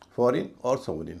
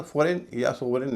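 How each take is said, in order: First: Short i endings on "फॉरेन और सोवरेन"; correct pronunciation. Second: Long ay endings on "फॉरेन या सोवरेन"; wrong pronunciation. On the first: Teacher modelling foreign and sovereign, reduced endings. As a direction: end "फॉरेन और सोवरेन" in a quick rin. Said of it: "इसका उच्चारण फॉरेन या सोवरेन नहीं होता". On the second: Teacher showing students what not to say, mispronounced endings. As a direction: stretch the last vowel of "फॉरेन या सोवरेन" to ए. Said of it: "उच्चारण फॉरेन या सोवरेन नहीं होता". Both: Shown as a demonstration.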